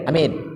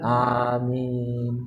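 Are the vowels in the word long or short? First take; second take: short; long. First: Both vowels are said short and quick. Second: Both vowels are drawn out long. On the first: The speaker calls it wrong. "kalau ngamin ke doa imam pendek kan" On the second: The speaker calls it right. "A panjang, min panjang, itu yang tepat"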